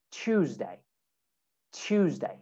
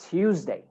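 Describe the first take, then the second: First: "Tuesday" said as "choozday", lower and softer; "Tuesday" with T turned to CH; CH sound. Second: American "Tuesday" with a plain T, not CH; American accent. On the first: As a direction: start "Tuesday" with CH. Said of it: "make that a che sound". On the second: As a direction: say "Tuesday" with a clean T, American style. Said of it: "normally in American accent, we say". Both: Shown as a demonstration.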